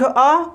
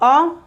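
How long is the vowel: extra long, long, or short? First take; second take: long; short. First: The vowel is held for two beats. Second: The vowel is held for one short beat. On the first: "दीर्घ" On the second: "ह्रस्व"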